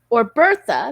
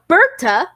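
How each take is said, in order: First: The middle consonant is a th sound. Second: The middle consonant is a plain t sound.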